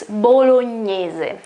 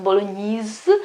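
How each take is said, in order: First: Bolognese slow, final e sounded, "bolo-nyeh-zeh"; correct Italian pronunciation. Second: Bolognese cut short as "bolo-neez"; wrong pronunciation. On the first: Teacher correcting English habit, slow Italian bolognese. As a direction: sound every vowel in bolognese, slowly. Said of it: "it's bolognese". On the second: Teacher showing English habit, bolognese without final vowel. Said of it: "so it's not bolognese". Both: Shown as a demonstration.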